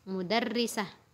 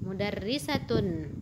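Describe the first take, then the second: First: The word ends with a short 'ah' sound. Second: The word ends with a full 'atun' ending. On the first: The word is read at a stop. "kalau kita berhenti di situ, dia menjadi ha bunyinya" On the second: The word is read with its vowel ending, not at a stop. "Kalau kita harakatkan ta-nya, ta bacanya, tun bacanya"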